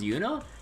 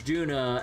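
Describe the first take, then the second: First: The name begins with a Y sound. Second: The name begins with a J sound. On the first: The speaker calls it right. "that's supposed to pronounce Yuna?" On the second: The speaker calls it wrong. "I mispronounced Yuna as Juna"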